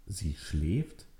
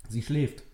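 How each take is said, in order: First: Softer, rising disbelief; incredulous echo. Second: Said in the usual way. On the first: Acted. Nele echoes Richard's words, quiet incredulous question. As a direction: repeat it, not believing it.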